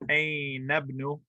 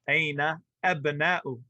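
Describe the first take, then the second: First: The words run together without a glottal stop. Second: A glottal stop separates the words.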